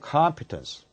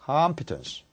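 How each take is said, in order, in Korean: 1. 첫 음절에 강세가 있어요. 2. 첫 음절에 강세가 있어요.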